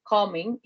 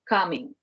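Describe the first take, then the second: First: The first vowel sounds like a rounded 'oh'. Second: The first vowel sounds like an open 'ah'. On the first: The speaker calls it wrong. "People uh, said co or coming" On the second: The speaker calls it right. "it's like ah, coming"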